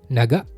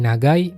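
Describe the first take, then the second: First: The word ends abruptly with a held stop. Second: The final vowel i is fully pronounced. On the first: It expresses surprise. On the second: It states the quality plainly.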